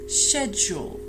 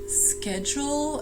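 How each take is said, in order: First: It is said in a British accent. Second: It is said in an American accent. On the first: "in British English schedule" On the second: "in American English schedule"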